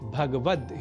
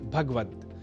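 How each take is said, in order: First: The vowel after the g sound is kept. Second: The vowel after the g sound is dropped. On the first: The speaker calls it right. "शुद्ध उच्चारण भगवद ही है" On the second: The speaker calls it wrong. "भगवत पद में गकार से संयुक्त अ स्वर का हम लोप कर देते हैं और कह बैठते हैं भगवत"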